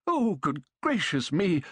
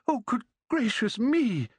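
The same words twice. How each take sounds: First: Excited exclaiming. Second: Put-on much higher, giddy old man's cry; old man exclaiming. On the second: Overjoyed old man greeting his grandson's friend, exclaiming high. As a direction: burst out in delighted disbelief. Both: A narrator's reading.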